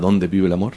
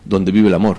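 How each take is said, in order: First: It is said as a question with stressed dónde. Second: It is said as a statement with unstressed donde. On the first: It asks where love lives. The speaker calls it wrong. "No dónde con acento, no se pregunta" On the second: It refers to the place where love lives. The speaker calls it right.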